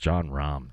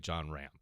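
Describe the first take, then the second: First: The surname is said the standard way. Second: The surname is said the local Rochester way. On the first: The speaker calls it right. "it's it's John Rahm" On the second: The speaker calls it wrong. "Why do you say John Ram? Because you live in Rochester?"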